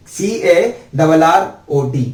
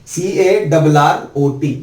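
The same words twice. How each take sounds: The two takes are said the same way.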